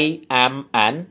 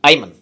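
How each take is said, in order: First: Each word is said separately and fully. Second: The words run together like one word.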